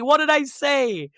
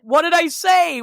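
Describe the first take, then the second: First: Slow feigned innocence. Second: Mock innocent protest. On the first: Retold or imitated. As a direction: stretch it out as if truly puzzled. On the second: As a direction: play dumb, pushing back with a raised voice. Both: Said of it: "she's like".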